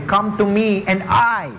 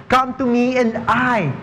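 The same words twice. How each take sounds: First: "I" leaned on at the end of "Come to me and I"; stress on I. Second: Said in the usual way. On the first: Shown as a demonstration. Preacher showing the congregation the word that matters, stress on I. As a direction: land the weight on the final "I", not on "come". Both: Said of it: "The emphasis is not on you".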